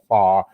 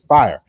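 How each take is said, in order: First: The word is said in a heavy Southern accent. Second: The word is said in a standard, non-Southern accent. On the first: "that heavy Southern accent where I say y'all or far" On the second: "I say fire"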